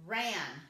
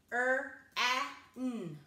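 First: Said in the usual way. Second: R-A-N as three separate sounds; chopped-up sounds. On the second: Shown as a demonstration. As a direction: chop R-A-N sound by sound, pausing between. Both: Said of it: "and chop it up".

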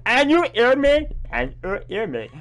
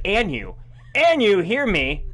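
First: "And you hear me?" with a high rising question on "you". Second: Said in the usual way. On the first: Shown as a demonstration. Streamer reading the garbled subtitle again, as a rising question. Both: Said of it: "There's no C here".

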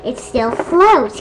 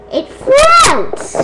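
First: Said in the usual way. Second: Very high shouted squeal; excited squeal. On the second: Real, not acted. Seeing the balloon still floats, squealed in excitement. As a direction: shriek "floats" high and stretched.

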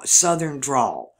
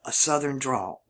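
First: Slow, stretched Southern drawl on the words. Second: Said in the usual way. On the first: Shown as a demonstration. Showing how Southerners drawl, in a slow Southern drawl. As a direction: draw the vowels out long, Mississippi style. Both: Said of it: "We drawl out our words".

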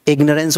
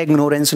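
First: इग्नोरेंस said as "IG-nuh-rence"; इग्नोरेंस with no "nore" in it; correct pronunciation. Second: इग्नोरेंस said as "ig-NORE-ence"; long o in इग्नोरेंस; mispronounced ignorance. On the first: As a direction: say इग्नोरेंस with a short, weak middle syllable. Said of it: "होता है". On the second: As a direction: say इग्नोरेंस with a full "nore" in the middle. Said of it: "नहीं होता". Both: Shown as a demonstration.

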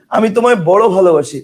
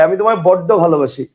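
First: Said in the usual way. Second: বড্ড with a held double d; বড্ড said as boddo, not boro; doubled d in বড্ড. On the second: Shown as a demonstration. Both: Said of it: "তা না বলে কি বলা হয়".

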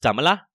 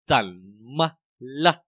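First: 怎么了 run together briskly; 怎么了 in one quick breath, last syllable short; quick normal reading. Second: 怎么了 stretched out, syllable by syllable; slow-motion teaching demo of 怎么了; very slow reading. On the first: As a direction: say 怎么了 quickly, as in everyday speech. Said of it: "nó nhanh này". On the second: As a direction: say 怎么了 extremely slowly, with gaps between syllables. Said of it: "mình đọc rất là chậm". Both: Shown as a demonstration.

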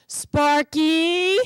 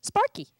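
First: Stern call. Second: Name said brightly. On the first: Acted. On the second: A narrator's reading. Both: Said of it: "I can only understand my name".

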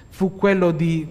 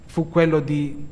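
Both takes have the same delivery.

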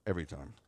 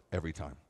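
The two takes are said the same way.

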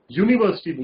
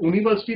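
First: यूनिवर्सिटी begun with a "yoo" glide; correct y-sound pronunciation. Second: यूनिवर्सिटी said with plain "oo" at the start, no y-glide; mispronounced यूनिवर्सिटी. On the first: Teacher correcting students' pronunciation, clear "yoo" start on यूनिवर्सिटी. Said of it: "यूनिवर्सिटी बोलते हैं". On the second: Teacher showing students how not to say it, wrong "oo" start on यूनिवर्सिटी. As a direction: open यूनिवर्सिटी on a bare vowel, "ooniversity". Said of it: "इसको यूनिवर्सिटी नहीं बोलते हैं". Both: Shown as a demonstration.

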